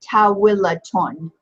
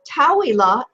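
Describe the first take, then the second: First: The word ends with an added 'ton' syllable. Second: The word ends on a plain open vowel. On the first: "when we add our nunation over it, it's Tawilaton" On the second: "it's Tawila if we pronounce it unvoweled"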